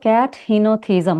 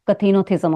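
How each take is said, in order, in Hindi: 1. यह शब्द दो अलग हिस्सों में बँटा है। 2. यह शब्द एक साथ जुड़ा हुआ बोला जाता है। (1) "अगर ब्रेक करेंगे तो" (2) "टुगेदर बोलेंगे तो"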